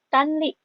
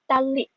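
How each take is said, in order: First: The n sound is pronounced before the l. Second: The n merges into the following l sound. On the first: The speaker calls it wrong. "Bukan tanli" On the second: The speaker calls it right. "tapi tali"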